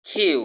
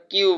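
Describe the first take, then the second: First: "কিউ" higher, starting with breathed kh; correct aspirated Q. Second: "কিউ" with an unaspirated k; common mispronunciation. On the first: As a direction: puff hard on the k of "কিউ". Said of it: "খ এর মতো উচ্চারণ". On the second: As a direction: say "কিউ" on a plain k. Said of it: "কিন্তু এটা শুদ্ধ উচ্চারণ হচ্ছে". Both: Shown as a demonstration.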